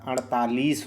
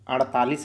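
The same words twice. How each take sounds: First: The vowel in the last syllable is long. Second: The vowel in the last syllable is short. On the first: The speaker calls it right. "अड़तालीस होता है" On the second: The speaker calls it wrong. "अड़तालीस नहीं होता"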